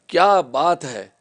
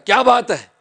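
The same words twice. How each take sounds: First: It is said admiringly, in praise. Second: It is said in a scolding tone.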